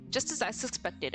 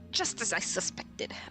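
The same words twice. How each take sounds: First: It is read in a plain, ordinary voice. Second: It is read in an exaggerated put-on character voice.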